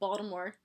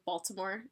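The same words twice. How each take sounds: First: It is said with a clipped local Baltimore pronunciation. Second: It is said with a full, standard pronunciation. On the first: The speaker is from Baltimore. "and not Baltimore" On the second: The speaker is not from Baltimore. "I say Baltimore"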